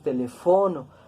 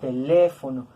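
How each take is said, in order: First: The stress is on the second-to-last syllable. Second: The stress is on the third-to-last syllable. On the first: The speaker calls it wrong. "Nosotros tampoco decimos teléfono" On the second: The speaker calls it right. "nosotros pronunciamos teléfono"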